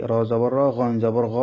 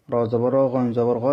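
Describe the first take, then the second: No difference in how they are said.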